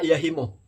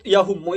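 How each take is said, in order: First: The vowel after the h is i. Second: The vowel after the h is u. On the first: The speaker calls it right. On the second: The speaker calls it wrong. "itu salah"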